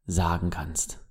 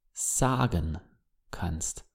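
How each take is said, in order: First: Said in the usual way. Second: Soft whispered repeat; whispered echo. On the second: Shown as a demonstration. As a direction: echo the words in a breathy whisper. Phrase echoed as whisper.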